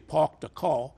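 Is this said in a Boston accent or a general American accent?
general American. It is said in a general American accent. "you don't say park the car"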